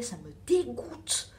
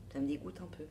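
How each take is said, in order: First: Slow, drawn-out disgust on dégoûte. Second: Softer, lower, just a little grossed out; toned-down disgust. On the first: Telling her viewer about the moths, openly disgusted. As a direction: really lean into dégoûte, falling. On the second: Admitting the flower is a bit gross, quieter. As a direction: take dégoûte back down to a mild murmur. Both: Real, not acted.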